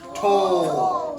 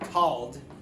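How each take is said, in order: First: The vowel is a long o sound. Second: The vowel is a short o sound. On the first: The speaker calls it right. "long O" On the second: The speaker calls it wrong. "So it doesn't say t-ald, tald"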